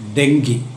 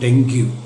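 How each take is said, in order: First: The word ends in an 'ee' sound. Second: The word ends in a 'yoo' sound. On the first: The speaker calls it right. "ഇതിൻ്റെ ഉച്ചാരണം ഡെങ്കി എന്നാണ്" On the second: The speaker calls it wrong. "Not ഡെങ്ക്യൂ"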